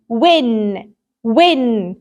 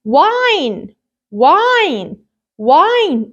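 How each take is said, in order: First: "Win" with short i, pitched low. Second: "Wine" with a drawn-out "eye" vowel, rising then falling; long I. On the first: Teacher reads the word before adding magic E, short I. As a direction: say "Win" with the i of "ink", lower. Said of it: "صوت ال I وهو short". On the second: Teacher models the magic E word, long I. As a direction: stretch the letter-name I in "Wine". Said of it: "I pronounce it as I". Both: Shown as a demonstration.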